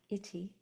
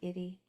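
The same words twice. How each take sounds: First: The middle consonant is a crisp T sound. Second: The middle consonant is a soft D-like tap. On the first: "if you're English or British" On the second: "it sounds kind of like a D"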